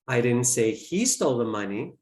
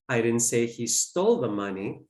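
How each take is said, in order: First: The word 'he' is stressed. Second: The word 'stole' is stressed. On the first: Someone else took it. "I implied that someone else did" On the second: He may have borrowed it instead. "Maybe he borrowed it"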